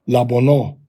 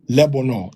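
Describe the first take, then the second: First: The first syllable has a quick a vowel. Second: The first syllable has an e vowel. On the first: The speaker calls it right. "it's going to be a quick la" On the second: The speaker calls it wrong. "it's not going to be le"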